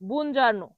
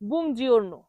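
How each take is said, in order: First: The middle syllable sounds like 'jar'. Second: The middle syllable sounds like 'jor'. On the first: The speaker calls it wrong. "যারা ভুল করে বলে তারা অনেক সময় বুনজার্নো বলে।" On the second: The speaker calls it right. "তবে এটার সঠিক উচ্চারণ হবে"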